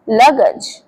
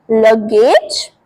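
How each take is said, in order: First: लगज with a short 'गज' ending; लगज clipped, short vowel; correct pronunciation. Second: लगेज drawn out slowly with a long 'गेज'; लगेज as people wrongly say it; wrong pronunciation. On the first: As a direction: say लगज, not लगेज. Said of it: "इसे बोलते हैं लगज". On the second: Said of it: "लगेज बहुत बोलते हैं लोग". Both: Shown as a demonstration.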